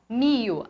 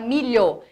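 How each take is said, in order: First: The middle consonant becomes a plain 'i' glide. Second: The middle consonant is a palatal 'lh' sound. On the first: This is the regional form. "ela vai falar mio" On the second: This is the standard form. "ela não fala milho"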